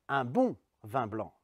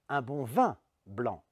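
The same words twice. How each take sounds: First: The stress is on the word bon. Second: The stress is on the word vin. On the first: The quality matters: a good one. "La deuxième fois, sur le côté bon" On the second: Wine is wanted and nothing else. "c'est du vin que je veux et pas autre chose"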